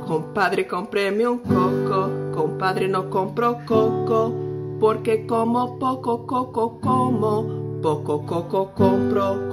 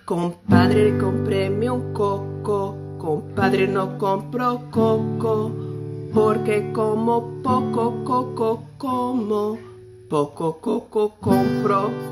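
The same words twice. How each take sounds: First: It is said faster. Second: It is said very slowly.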